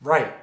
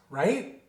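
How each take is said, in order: First: "Right." falling, lower and louder, as a firm statement; period. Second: "right?" with a rising questioning tune; question mark. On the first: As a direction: drop "Right." to a full stop. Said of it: "a period". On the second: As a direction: lift the end of "right?" as a question. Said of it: "a question mark". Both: Shown as a demonstration.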